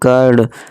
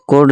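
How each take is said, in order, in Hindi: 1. स्वर छोटी 'uh' ध्वनि है। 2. स्वर गोल 'o' ध्वनि है। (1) "यू को छोटा आ से पढ़ें" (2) "नहीं"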